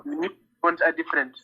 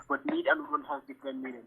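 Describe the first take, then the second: First: Repeated clearly for a listener who missed it; to someone hard of hearing. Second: Barely audible, trailing off; mumbled under the breath; too quiet. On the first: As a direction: spell it out so they hear. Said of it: "Say again?". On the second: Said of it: "can you speak louder". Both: Real, not acted.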